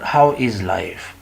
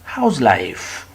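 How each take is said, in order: First: The verb is said in full as is. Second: The verb is contracted to a short s sound. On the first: The speaker calls it wrong. "Not how is life" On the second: The speaker calls it right.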